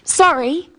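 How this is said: It falls at the end, as an apology.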